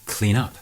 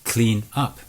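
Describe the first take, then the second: First: The two words blend into one unit. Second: The two words are said separately.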